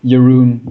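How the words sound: The name is said in an English way. "if you're only familiar with English, um, your Jeroen is fine"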